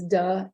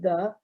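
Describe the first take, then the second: First: The word begins with a d sound. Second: The word begins with a voiced th sound. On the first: "it becomes duh" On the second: "what we call the voice th"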